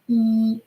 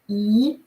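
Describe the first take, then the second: First: The pitch stays high and level. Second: The pitch rises from mid to high. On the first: It means close. "first with a flat tone" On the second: It means aunt. "E with the rising tone"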